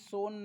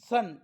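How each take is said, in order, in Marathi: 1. स्वर हा दीर्घ 'oh' आवाज आहे. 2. स्वर हा ह्रस्व 'uh' आवाज आहे. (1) "सोन नाही"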